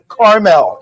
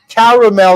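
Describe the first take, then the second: First: The word has two syllables, middle vowel dropped. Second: The word has three syllables, middle vowel kept. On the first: "and not caramel" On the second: "Notice I said caramel"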